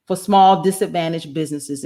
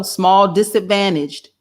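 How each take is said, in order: First: Said in the usual way. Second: Slow, scornful repeat of small disadvantaged; mocking repeat. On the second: Real, not acted. Host mocks the phrase from the article, slow and scornful. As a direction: drag out small disadvantaged with disdain. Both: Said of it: "And here we go".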